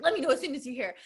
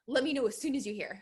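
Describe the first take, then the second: First: It is said in a very energetic way. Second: It is said in a calm, even way.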